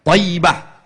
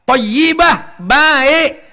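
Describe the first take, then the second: First: Said in the usual way. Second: Thayyibah said higher and louder, falling; stressed Thayyibah. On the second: Shown as a demonstration. Preacher teaching the word's meaning, stressed. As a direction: lift and punch Thayyibah. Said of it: "Kalau perempuan, thayyibah".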